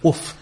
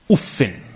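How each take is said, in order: First: The word ends on a bare consonant. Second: The word ends with an added -in. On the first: "you can say with the سكون" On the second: "or you can say as with a كسرة بالتنوين"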